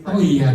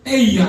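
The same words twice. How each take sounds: First: "Oh iya" lower and restrained, not blurted; held back. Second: "Eh iya" popped out high and quick; sudden blurt. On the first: Preacher showing the calmer way to answer, held back. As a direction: hold it in a little. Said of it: "maksudnya ditahan dikit". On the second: Preacher showing the startling reply, blurted. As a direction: let it jump out unfiltered. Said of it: "pokoknya langsung keluar". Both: Shown as a demonstration.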